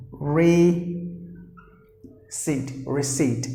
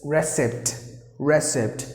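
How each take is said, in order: First: "receipt" as ree-SEET, silent P; correct pronunciation. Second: "receipt" said RESS-ipt, with the P sounded; short first vowel and audible P in "receipt"; common mispronunciation. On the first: Teacher models for learners, "receipt" as ree-SEET without P. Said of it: "you have to pronounce the word as receipt". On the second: Teacher imitates learners' error, "receipt" as RESS-ipt. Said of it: "will pronounce the word as". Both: Shown as a demonstration.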